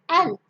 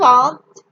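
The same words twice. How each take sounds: First: It is said like 'ant', American style. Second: It is said like 'ahnt', non-American style.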